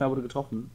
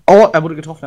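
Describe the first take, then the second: First: Soft muttered echo; quiet repeat. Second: Loud excited callout; man down shout. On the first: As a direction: say it again under your breath. Repeats the callout. (leise wiederholt) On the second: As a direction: shout it out to the team. Enemy hit during fight. (lauter Ausruf) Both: Real, not acted.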